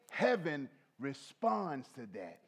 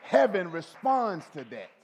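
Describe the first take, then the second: First: Said in the usual way. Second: Loud declaration. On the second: Real, not acted.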